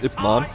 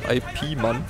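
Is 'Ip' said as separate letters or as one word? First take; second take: one word; letters. First: The first part is said as one syllable. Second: The first part is read as separate letters. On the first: The speaker calls it right. "Oder halt richtig ausgesprochen" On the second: The speaker calls it wrong. "Geschrieben wie IP Man"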